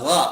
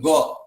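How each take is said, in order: First: It begins with a rasping sound from the throat. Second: It begins with a plain hard g sound. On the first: The speaker calls it right. "Gha, gha, bukan go" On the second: The speaker calls it wrong. "bukan go"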